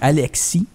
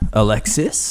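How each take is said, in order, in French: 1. Le nom se prononce à la française. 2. Le nom se prononce à l'anglaise. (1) "en français, on dit Alexis" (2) "en anglais, on dit il y a le cas, il est silencieux"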